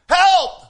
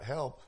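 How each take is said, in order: First: The word is cried out with urgency. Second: The word is said flatly, without urgency. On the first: The danger is immediate and help is needed now. The speaker calls it right. "It's immediate. It's right now" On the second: The trouble does not feel pressing. The speaker calls it wrong. "Not help"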